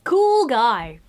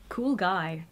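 First: Loud delighted cool. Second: Said in the usual way. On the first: Real, not acted. Loudly praising a card to viewers. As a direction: shout it out.

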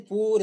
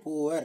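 First: "ಪೂರ್" as one syllable, poor; American pronunciation. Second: "poor" in two syllables, poo-ar; British pronunciation. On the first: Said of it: "American English". ("ಪೂರ್" American ಉಚ್ಚಾರಣೆ, ಒಂದೇ ಉಚ್ಚಾರಾಂಶ) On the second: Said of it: "British ಇಂಗ್ಲಿಷಲ್ಲಿ we say". ("poor" British ಉಚ್ಚಾರಣೆಯಲ್ಲಿ, ಪೂ-ವರ್) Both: Shown as a demonstration.

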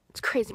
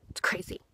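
First: Said in the usual way. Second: Breathy whisper, half to herself. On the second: Real, not acted. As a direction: whisper it in awe at the result. Amazed at her own results.

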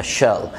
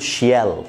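First: "شال" as one syllable, shul; short "شال", sh straight into l; correct pronunciation. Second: "شيال" in two syllables, shee-yal; "شيال" split as shi-YAL; common mispronunciation. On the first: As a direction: say "شال" with no y glide. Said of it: "المفروض تبقى". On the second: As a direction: say "شيال" with an added y glide. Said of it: "اغلبنا بيقول". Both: Shown as a demonstration.

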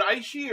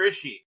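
First: "Aishi" starting like the word eye; first syllable of "Aishi" as EYE; long-i pronunciation. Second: "Ishi" starting like the word is; first syllable of "Ishi" as in "is she"; short-i pronunciation. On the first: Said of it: "is it Aishi or Ishi?". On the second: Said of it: "It's Ishi". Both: Shown as a demonstration.

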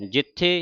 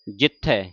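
First: ਜਿੱਥੇ ending in a close "e"; single-lav ending. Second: ਜਿੱਥੇ ending in an open "ai"; two-lava ending. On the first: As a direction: say ਜਿੱਥੇ as everyday "jitthe". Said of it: "ਕਿੰਨਾ ਫਰਕ ਪੈਂਦਾ ਇੱਕ ਲਾਂ". (ਜਿੱਥੇ ਦਾ ਅੰਤ ਇੱਕ ਲਾਂ ਨਾਲ "ਥੇ") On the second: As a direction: say ਜਿੱਥੇ as "jitthai". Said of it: "ਜਿੱਥੇ ਪੜ੍ਹਨਾ". (ਜਿੱਥੇ ਦਾ ਅੰਤ ਦੁਲਾਵਾਂ ਨਾਲ "ਥੈ") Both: Shown as a demonstration.

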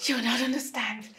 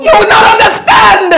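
First: Tearful murmur. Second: Crying shout. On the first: Wife repeats it quietly, crushed. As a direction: drop to a soft broken mutter. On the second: Wife screams at the police through her tears. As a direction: shout it through tears, much higher and louder. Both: Acted.

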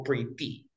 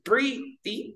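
First: Pretty with ty pushed, pre dropped soft; pretty with ty stressed. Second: Pretty with PRE high and strong; Pretty with pre raised; stress on PRE. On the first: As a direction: lean on the end of pretty. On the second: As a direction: hit pre hard in Pretty. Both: Shown as a demonstration. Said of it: "Mira, tú dices".

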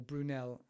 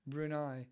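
First: Brunel, ending in "ell"; alternative pronunciation. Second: Brunei, ending like "eye"; mispronounced Brunel. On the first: Speaker correcting the engineer's surname, Brunel pronounced with final L. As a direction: say Brunel with a clear "nell" at the end. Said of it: "however you pronounce it". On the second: Speaker unsure of the engineer's surname, mispronounced as Brunei. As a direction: say Brunei with a final "eye" sound, no L. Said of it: "pronouncing it wrong". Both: Real, not acted.

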